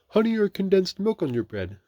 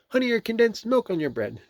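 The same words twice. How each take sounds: First: It is spoken in a mismatched character voice. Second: It is spoken in a different, fitting character voice. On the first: The speaker calls it wrong. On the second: The speaker calls it right.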